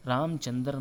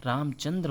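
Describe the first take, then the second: First: रामचंद्र as "Ramchandar"; incorrect pronunciation. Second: रामचंद्र as "Ramchandra"; correct pronunciation. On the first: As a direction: say रामचंद्र with a vowel between D and R. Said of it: "नहीं". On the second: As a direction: say रामचंद्र with D and R joined. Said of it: "रामचंद्र होता है". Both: Shown as a demonstration.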